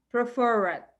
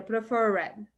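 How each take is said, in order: First: "Preferred" com o R caipira bem puxado; "Preferred" puxando bem o R. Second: "preferred" com o R retroflexo caipira puxado; "preferred" com R bem caipira. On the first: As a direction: puxe forte o R de "Preferred". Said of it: "Pode puxar bem o R". ("Preferred" com R caipira puxado) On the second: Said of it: "Bem caipira". ("preferred" com sotaque caipira no R) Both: Shown as a demonstration.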